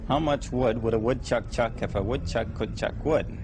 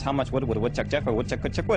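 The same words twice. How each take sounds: First: It is said slowly. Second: It is said fast.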